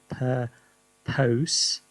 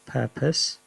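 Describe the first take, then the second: First: The last syllable is said fully like pose. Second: The last syllable is reduced and weak. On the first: This follows the spelling. "I suppose that's how you spell it" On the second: This is how it is normally said. "even though it's pronounced purpose"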